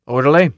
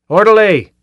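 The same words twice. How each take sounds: First: Loud call for the orderly; shouting. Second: High, loud angry bellow; full shout. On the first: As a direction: call out sharply across the office. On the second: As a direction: yell it out at full force. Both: A narrator's reading. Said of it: "was already shouting".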